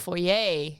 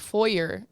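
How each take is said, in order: First: Foyer is said with a French-sounding ending. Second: Foyer is said with a plain English ending. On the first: It is the big, fancy entrance room. "a foyer is the big fancy one" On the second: It is the ordinary entrance room. "in Texas, a foyer is what you have"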